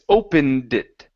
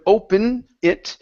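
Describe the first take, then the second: First: The d sound at the end of opened is pronounced. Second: The d sound at the end of opened is dropped. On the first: The speaker calls it right. "it's opened it" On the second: The speaker calls it wrong. "You're saying open it"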